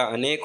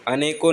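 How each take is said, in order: First: अनेक ending cleanly on the k sound; correct base form. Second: अनेकों ending in a nasal "-on" sound; wrong plural form. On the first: Teacher giving the correction, अनेक closed on a final k. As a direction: stop अनेक on "k", no vowel after. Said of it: "अनेक होता है". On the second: Teacher showing the mistake, अनेकों with an added final "o". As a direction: add "-on" to the end: अनेकों. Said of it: "अनेकों नहीं होता". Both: Shown as a demonstration.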